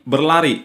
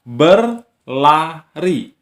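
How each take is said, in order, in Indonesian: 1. Kata ini diucapkan mengalir dalam satu bagian utuh. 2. Kata ini dipisah dengan jeda di antara suku katanya. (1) "berlari satu kata" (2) "terdiri dari tiga suku kata"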